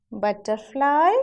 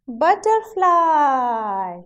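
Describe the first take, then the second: First: Put-on butterfly, rising for children to repeat; butterfly with rising tune. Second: Slow, loud "butterfly" gliding down; butterfly, long falling model for children; butterfly drawn out, falling. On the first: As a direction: prompt "butterfly" with a lift at the end. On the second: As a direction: stretch the end of butterfly downward. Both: Shown as a demonstration. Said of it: "Now say it with me".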